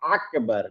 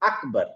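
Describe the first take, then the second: First: The first vowel is broken with a throat constriction. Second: The first vowel is plain with no throat constriction. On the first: The speaker calls it wrong. "আমি যদি বলি না কিন্তু আকবার না।" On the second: The speaker calls it right. "তার উচ্চারণটা কমপ্লিট বাংলাদেশী ওই আয়ের সাথে মিলে যাবে।"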